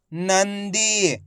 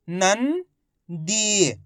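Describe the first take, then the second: First: Nandi joined, long "दी" falling; blended whole word. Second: Nandi in two parts, "नं" rising, pause, long "दी"; very slowly sound out Nandi piece by piece; split into syllables. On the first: Teacher showing learners the result, Nandi blended together. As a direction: say Nandi as one slow unbroken word. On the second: Teacher breaking Nandi down for learners, syllable by syllable. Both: Shown as a demonstration. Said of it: "इनको आपस में मिला के पढ़ना है".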